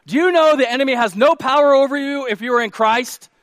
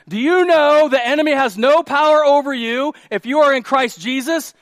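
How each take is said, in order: First: High, loud rhetorical question; emphatic preaching. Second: High, very loud preaching repeat; louder for the back. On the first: Preacher asks congregation about the enemy, emphatic preaching. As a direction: put the challenge to the whole room. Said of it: "Let me say that again". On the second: Preacher repeats for people in the back, loud and emphatic. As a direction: project it to the back row. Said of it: "again for the people in the back". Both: Real, not acted.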